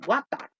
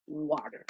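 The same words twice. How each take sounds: First: "water" said with a rounded g-like start and a flat final a, like gwata; "water" as gwata, final r dropped; "water" mispronounced as gwata; wrong water. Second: "water" with a clear w and a tapped t, like warer; "water" as warer, final r kept; "water" said the American way with a tapped middle; correct water. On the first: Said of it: "decimos water". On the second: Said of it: "nosotros no decimos water". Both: Shown as a demonstration.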